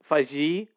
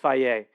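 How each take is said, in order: First: The name ends in a 'jee' sound. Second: The name ends in an 'ay' sound. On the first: The speaker calls it wrong. "one way I was gonna pronounce it was Faji" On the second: The speaker calls it right. "but no, it's Faye"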